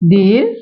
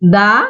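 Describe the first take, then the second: First: The word ends in a long 'ee' vowel. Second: The word ends in a short 'uh' vowel. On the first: A vowel sound follows. "দি ব্যবহার করব vowel সাউন্ডের পূর্বে" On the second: A consonant sound follows. "দা ব্যবহার করব যখন consonant sound থাকবে তার পূর্বে"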